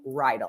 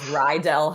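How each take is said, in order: First: The name rhymes with bridle. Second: The name does not rhyme with bridle. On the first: This is how the family says it. The speaker calls it right. "It's like a horse bridle without the B" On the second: This is the common mistaken version. The speaker calls it wrong. "Most people say Rydell because they've watched Grease"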